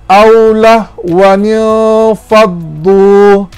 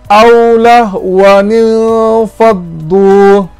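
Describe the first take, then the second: Both takes have the same delivery.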